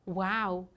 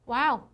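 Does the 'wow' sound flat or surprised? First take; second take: flat; surprised. First: It is said flatly, with no emotion. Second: It is said with lively, surprised emotion. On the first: The speaker is just making the sound. The speaker calls it wrong. "그냥 와우 이러면 진짜 이상하게 들려요" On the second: The speaker is genuinely amazed. The speaker calls it right. "wow라고 하면서 어떤 놀라움을 표시할 거예요"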